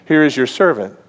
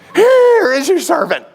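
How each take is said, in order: First: It is said calmly, as a plain statement. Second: It is said fearfully, like an exclamation.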